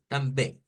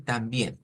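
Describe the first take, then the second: First: "também" as tam-bēi with nasal ending; Portuguese pronunciation. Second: Said in the usual way. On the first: Shown as a demonstration. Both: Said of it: "Para decir también".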